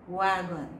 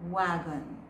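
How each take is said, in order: The two takes are said the same way.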